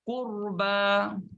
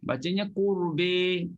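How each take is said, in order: First: The final vowel is a plain open a. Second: The final vowel is tilted toward e.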